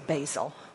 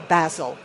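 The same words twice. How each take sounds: First: The word has an American pronunciation. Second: The word has a British pronunciation. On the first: "since I'm American, I'm going to say basil" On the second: "or basil, I guess, if you're British"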